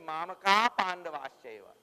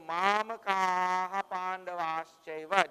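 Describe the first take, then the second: First: The first word ends without an added syllable. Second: The first word ends with an added 'ha' syllable. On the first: The meter keeps its proper syllable count. The speaker calls it right. "you have to say Mamaka Pandavaschaiva" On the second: The meter gains a syllable and is broken. The speaker calls it wrong. "then you add one more syllable when you do that"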